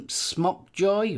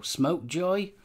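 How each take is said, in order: First: "Smockjoy" with short o, as in "sock"; short-vowel pronunciation. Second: "Smokejoy" with long o, as in "smoke"; long-vowel pronunciation. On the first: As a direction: say the first syllable of "Smockjoy" like "smock". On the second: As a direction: say the first syllable of "Smokejoy" like "smoke". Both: Shown as a demonstration. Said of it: "if that's Smokejoy or Smockjoy".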